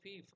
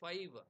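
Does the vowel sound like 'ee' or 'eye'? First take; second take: ee; eye. First: The vowel sounds like 'ee'. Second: The vowel sounds like 'eye'. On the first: This is the older pronunciation. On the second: This is the modern pronunciation.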